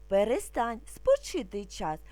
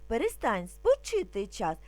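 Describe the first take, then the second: No difference in how they are said.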